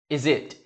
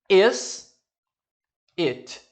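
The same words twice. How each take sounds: First: The s sound links into the next word. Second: The two words are said separately.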